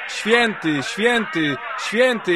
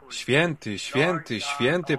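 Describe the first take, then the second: First: It is shouted loudly and forcefully. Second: It is said weakly and softly. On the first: The praise is powerful enough to shake the building. The speaker calls it right. "krzyczały" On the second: The praise is timid and feeble. The speaker calls it wrong. "one musiały to mówić bardzo słabo"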